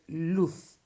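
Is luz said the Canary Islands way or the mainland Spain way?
mainland Spain. The final z does not sound like an s. "in Spain we are supposed to say luz"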